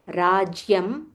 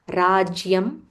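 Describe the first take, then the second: No difference in how they are said.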